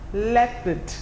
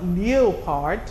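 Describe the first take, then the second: First: The first syllable has an 'eh' vowel. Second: The first syllable has an 'ee-oh' vowel. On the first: The speaker calls it right. "E O says E and not E O" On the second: The speaker calls it wrong. "it's not leopard"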